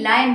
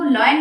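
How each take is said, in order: First: "लायन" with an eye vowel; correct lion. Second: "लॉयन" with an oy vowel; mispronounced lion. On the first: Teacher telling parents the right form, lie-un. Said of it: "आप उनको लॉयन नहीं". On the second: Teacher telling parents what to avoid, loy-un. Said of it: "लॉयन नहीं". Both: Shown as a demonstration.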